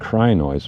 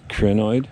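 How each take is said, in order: First: The first vowel is a long 'eye' sound. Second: The first vowel is not a long 'eye' sound. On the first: This is how other people say it. The speaker calls it wrong. "that long I sound in crinoids, when people pronounce it like that" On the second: This follows the Greek origin of the word. The speaker calls it right. "so it's crinoid, according to me"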